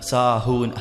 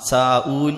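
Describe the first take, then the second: First: The middle has a clear h sound. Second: The middle has a glottal catch, no h. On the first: The speaker calls it right. "ഹംസ വരുത്" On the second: The speaker calls it wrong. "സാഊൻ എന്ന് പറയരുത്"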